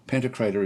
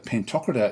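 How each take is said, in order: First: It is said the American way. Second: It is said the British way. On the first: "is the U S way of saying it" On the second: "is the British way of saying it"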